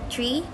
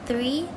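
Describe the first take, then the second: First: It begins with a hard 't' sound. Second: It begins with a soft 'th' sound.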